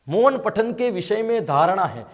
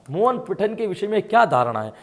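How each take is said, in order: First: Reads the question out slowly, word by word; slow, deliberate reading of the question. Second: Said in the usual way. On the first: Shown as a demonstration. (प्रश्न को धीरे-धीरे पढ़ना)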